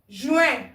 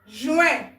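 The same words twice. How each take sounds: No difference in how they are said.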